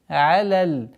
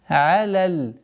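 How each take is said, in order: The two takes are said the same way.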